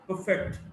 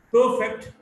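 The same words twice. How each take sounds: First: "perfect" as per-FECT; weak start, strong FECT in "perfect"; stress on second syllable. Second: "perfect" as PER-fect; stress on first syllable. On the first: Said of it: "stressed in the second syllable". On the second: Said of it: "stressed in the first syllable". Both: Shown as a demonstration.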